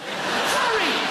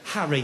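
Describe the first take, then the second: First: High, incredulous cry of the name; mock-outraged exclamation; exasperated. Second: Said in the usual way. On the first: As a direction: yelp it in high-pitched disbelief. Exasperated at dull pet name.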